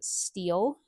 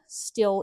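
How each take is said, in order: First: The vowel is long, like in 'steel'. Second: The vowel is short, like in 'still'. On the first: The speaker calls it right. "I'm really trying to pronounce it steel" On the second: The speaker calls it wrong. "I know I pronounce still incorrectly"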